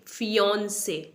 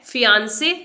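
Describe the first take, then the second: First: "फियोंसे" as fee-YAWN-say, softer; correct aw vowel. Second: "फियांसे" as fee-YAAN-say; wrong pronunciation. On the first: Teacher modelling the correct word, fee-yawn-say. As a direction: say "फियोंसे" with rounded aw, falling. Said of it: "correct pronunciation है वो है". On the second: Teacher testing the common error, fee-yaan-say. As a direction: say "फियांसे" with an open aa, rising. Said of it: "ये wrong". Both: Shown as a demonstration.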